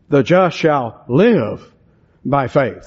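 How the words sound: The word 'live' carries the main stress. Faith is a continuing way of life. "the emphasis is on the word live"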